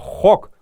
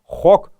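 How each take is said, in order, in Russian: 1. Слово — это один закрытый слог. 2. Слово — это один закрытый слог.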